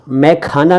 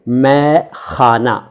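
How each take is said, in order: First: The kh is a k with a puff of air. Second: The kh is a raspy throat sound. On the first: The speaker calls it wrong. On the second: The speaker calls it right.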